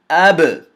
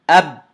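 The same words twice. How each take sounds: First: The final b ends with a slight echoing bounce. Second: The final b stops abruptly with no echo. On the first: The speaker calls it right. "if I were to say it correctly, I would say it like this" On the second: The speaker calls it wrong. "Now I'm going to say it incorrectly. ... I closed the articulation point and ... the sound stopped"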